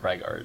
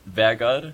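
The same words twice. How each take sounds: First: The name is said with English sounds. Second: The name is said with its Norwegian sounds. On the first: This is a simplified form for English speakers. "so I always just say Vegard or Vegard" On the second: This is the name's original form. "Technically, in Norwegian, it would be Vegard"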